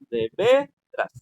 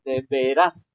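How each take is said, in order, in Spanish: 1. La sílaba tónica de veras es la primera. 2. La sílaba tónica de veras es la segunda. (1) "B es el que es el que suena eh, fuerte. Pero eras suena suave" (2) "El eras es el que suena fuerte"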